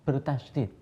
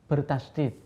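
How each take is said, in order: No difference in how they are said.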